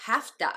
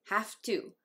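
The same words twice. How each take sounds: First: "have to" as "hafta"; reduced HAVE TO. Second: Said in the usual way. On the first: Shown as a demonstration. Reading a viewer's question, "have to" reduced to "hafta". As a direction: blend "have to" into quick "hafta". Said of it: "音声変化してhave toになります".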